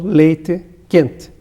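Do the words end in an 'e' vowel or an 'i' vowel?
e vowel. The final vowels are kept as an e sound. This is how it is said in the south. "a conservação do E em sílaba final"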